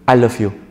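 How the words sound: It sounds a bit reluctant.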